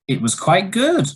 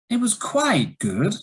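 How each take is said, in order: First: The voice rises in pitch across the phrase. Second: The voice rises, then falls, then rises again. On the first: The speaker is surprised. "it was a rising intonation and it shows surprise" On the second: There is some disagreement or a negative is coming. "it was a rise, fall, rise"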